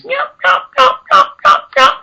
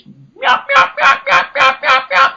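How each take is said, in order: First: Steady, evenly spaced yelps in a very high voice; even hen yelps. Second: Shrill rapid hen yelps mimicked in a very high voice; high fast yelps. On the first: Hunter showing the subtler yelp cadence, very high even yelps. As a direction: keep an even cadence, hit the high note. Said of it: "Or they can be subtle like this". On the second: Hunter demonstrating the plain yelp to viewers, very high voice. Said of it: "Just that high pitch". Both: Shown as a demonstration.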